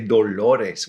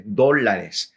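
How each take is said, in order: First: The stress is on the second syllable. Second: The stress is on the first syllable. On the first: It sounds like it means pains. The speaker calls it wrong. "would pronounce it without the accent. Plus, I would kind of make the A and an O" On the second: It means dollars. The speaker calls it right. "with an accent on the O there at the front"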